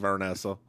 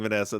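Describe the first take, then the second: First: The first syllable has an r sound. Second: The first syllable has no r sound. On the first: "they say Vernessa" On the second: "instead of saying Vanessa"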